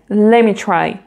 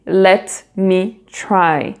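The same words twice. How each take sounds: First: The T sound in 'let' drops out. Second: The T sound in 'let' is clearly pronounced.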